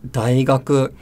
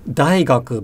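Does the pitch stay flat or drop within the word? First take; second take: flat; drops. First: The pitch rises and stays level. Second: The pitch drops after a high point. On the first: The speaker calls it right. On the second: The speaker calls it wrong. "it's not"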